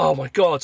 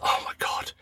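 First: Said in the usual way. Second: Retold exasperation in a whisper; whispered dismay. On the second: Dad sees it is midnight, whispered dismay. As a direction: whisper it as weary disbelief.

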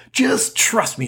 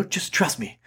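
First: Higher, insistent trust me; emphatic trust me. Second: Quiet, coaxing trust me; softer trust me. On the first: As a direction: press the point eagerly. Repeated reassurance, second higher. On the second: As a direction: murmur it gently. Repeated reassurance, first quiet. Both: Pretend.

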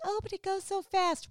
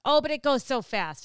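First: High, lilting mock old lady; sweet old lady. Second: Louder, sing-song mock old lady; sweet old lady. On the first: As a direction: imitate a sweet lady, pitched up. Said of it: "They're like". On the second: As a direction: imitate a sweet grocery-store lady.

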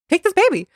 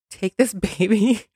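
First: High, pleading repeat; squeaky mock begging; mock desperate plea. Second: Asked through a laugh; chuckling as she asks; half-laughing request. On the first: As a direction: hand the baby over in mock desperation. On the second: Retold or imitated. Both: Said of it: "I said".

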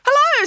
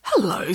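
First: Higher, louder squeaky cookie voice; chirpy little cookie greeting; gingerbread man voice. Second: Said in the usual way. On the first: A narrator's reading. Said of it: "said the gingerbread man". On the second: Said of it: "said Marge".

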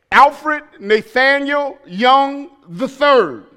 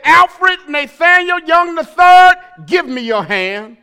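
First: Stern full name. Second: Loud stern mother calling full name; yelling child's full name. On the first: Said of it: "when she called my whole name". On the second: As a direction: call out the full name, not playing. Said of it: "she wasn't playing". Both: Retold or imitated.

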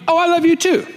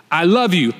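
First: High-pitched mock sweetheart reply; sweet reply. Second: Said in the usual way. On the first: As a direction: pitch it way up, answering a partner's "I love you". Models wife's usual loving reply.

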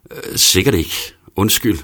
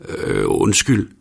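First: "Undskyld" short and falling, embarrassed; embarrassed mumble. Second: "undskyld" drawn out slowly with a rising tune; hesitant, slow "undskyld" rising at the end, like calling after someone. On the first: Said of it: "Jeg griner fjollet og mumler". (kort, faldende, flov "Undskyld") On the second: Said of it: "råber jeg det første, som falder mig ind". (tøvende "undskyld" med stigende tone) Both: A narrator's reading.

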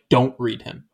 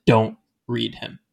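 First: Said in the usual way. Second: "Don't" hit firmly and drawn out, slow; stress on DON'T. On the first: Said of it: "They didn't just say". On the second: Shown as a demonstration. Friends forbidding Audrey the book, firm slow stress on "Don't". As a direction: lean hard on "Don't", slow pace. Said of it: "They said".

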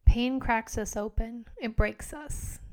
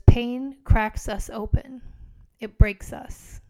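First: Quieter, reflective repeat, "It breaks us" slow and fading; soft reflective repeat. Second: Slow weighty emphasis on "Pain" and "breaks", louder, rising on "Pain"; slow emphatic reading. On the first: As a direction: say "Pain cracks us open" again gently to oneself. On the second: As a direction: lean hard into "Pain cracks us open", slowly. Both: Shown as a demonstration. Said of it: "repeats the quote after reading it".

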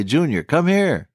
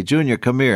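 First: A slightly firmer parent call, drawn out slowly; raised voice a little. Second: Said in the usual way. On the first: Retold or imitated. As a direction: call the child again, a bit more insistently. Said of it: "Then you raise your voice just a little bit".

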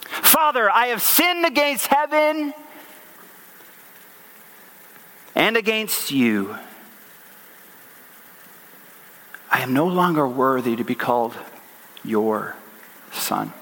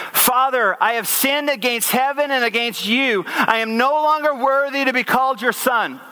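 First: Son rehearsing apology. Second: Higher-pitched, evenly flowing recitation; recited apology. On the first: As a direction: rehearse it haltingly, dropping away to almost nothing on "son". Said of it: "I can kind of picture him". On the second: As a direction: read out the apology line without a break. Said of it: "This is what it says". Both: Acted.

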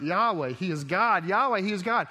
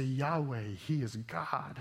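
First: Louder, rising cry of worship; growing shout of praise; crowd crying out. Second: Said in the usual way. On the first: Retold or imitated. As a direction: call it out like a crowd in awe. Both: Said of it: "I mean, they cry out".

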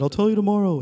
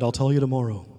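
First: Higher and louder, insisting; firm insistence. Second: Said in the usual way. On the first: Retold or imitated. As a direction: hold your ground, raised. Teacher insisting in quarrel.

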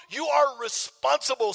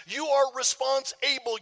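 First: Said in the usual way. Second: "response-able" broken into response plus able; word split in two. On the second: Shown as a demonstration. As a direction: slowly say "response-able" as two words, full "able". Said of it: "Something I keep saying".

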